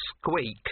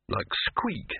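First: Higher, icy little echo; cold mouse. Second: Said in the usual way. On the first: A narrator's reading. Mouse repeats Victor's suggested name, coldly unimpressed. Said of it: "said the mouse coldly".

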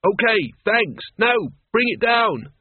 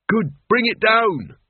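First: Loud, slow insistent call; impatient calling up. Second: Loud, slow call upward. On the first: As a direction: press her to come down. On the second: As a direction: shout up to her. Calling up the ladder. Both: Acted.

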